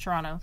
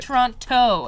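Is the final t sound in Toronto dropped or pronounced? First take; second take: dropped; pronounced. First: The t near the end is dropped. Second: The t near the end is clearly pronounced. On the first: The speaker is from the city. The speaker calls it right. "no, it's" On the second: The speaker is not from the city. The speaker calls it wrong. "that's how you know somebody's not from Toronto is when they're like"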